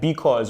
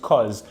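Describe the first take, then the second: First: The first syllable is kept in the word. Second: The first syllable is dropped from the word.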